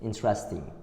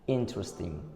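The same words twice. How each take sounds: First: The stress is on a later syllable. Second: The stress is on the first syllable. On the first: "but the majority say" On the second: "The stress is given to the first part of the words"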